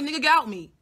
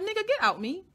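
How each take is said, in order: First: Louder, high, emphatic retold demand; retold blunt order. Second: High-pitched retold demand to get out; retold blunt order. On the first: Telling him to get out, loud emphatic retold order. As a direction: order him out loudly and firmly. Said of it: "I literally was like". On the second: Telling him to get out, high-pitched retold order.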